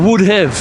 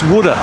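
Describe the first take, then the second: First: Both words are pronounced fully and separately. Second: The words run together, reduced to 'woulda'. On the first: The speaker calls it right. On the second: The speaker calls it wrong.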